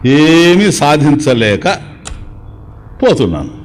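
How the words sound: The sentence is said with a short pause. The person is dying. "చనిపోయేటప్పుడు కొద్ది పాస్"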